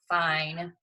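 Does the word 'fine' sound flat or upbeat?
flat. The word sounds flat and unenthusiastic. The day was not very good. "What do you infer? Wasn't very good"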